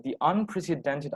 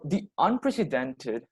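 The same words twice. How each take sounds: First: Said in the usual way. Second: Unprecedented drawn out slow and leaned on; slow down and hit unprecedented; stress on unprecedented. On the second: Shown as a demonstration. Presenter to camp audience, stressing unprecedented. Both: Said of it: "if I'm emphasizing that word".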